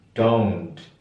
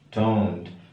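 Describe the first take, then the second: The two takes are said the same way.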